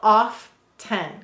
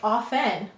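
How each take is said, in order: First: The T sound is clearly pronounced. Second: The T sound is left silent. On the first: "we will definitely say to spell off ten" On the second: "you might have that T as silent"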